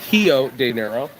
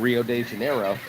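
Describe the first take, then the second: First: Rio begins with an H sound. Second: Rio begins with an English R sound. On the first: The speaker calls it right. "You got to say it right. It's a hiver" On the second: The speaker calls it wrong. "not a river"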